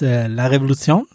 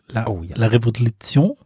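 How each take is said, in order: First: The title is said without French pronunciation. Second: The title is said with French pronunciation. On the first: The speaker calls it wrong. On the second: The speaker calls it right. "Französisch natürlich"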